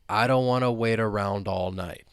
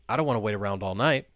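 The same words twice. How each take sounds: First: The sentence is spoken slowly. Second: The sentence is spoken fast. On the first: "let's say it slowly to begin with" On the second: "And now let's say it faster"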